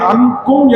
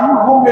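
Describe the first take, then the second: First: The word is said with a pressed, emphatic sound. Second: The word is said with a softened sound. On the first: The speaker calls it right. "அழுத்தி சொல்லுகிற" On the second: The speaker calls it wrong. "மெலினப்படுத்தி அன்கும் என்கிற மாதிரி ஓதுகிறார்"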